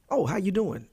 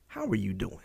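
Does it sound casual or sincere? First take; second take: casual; sincere. First: It sounds like a quick, casual greeting. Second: It sounds like a sincere, caring question.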